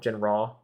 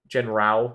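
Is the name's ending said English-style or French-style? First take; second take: French-style; English-style. First: The ending is said French-style, like "raw". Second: The ending is read out as spelled, English-style.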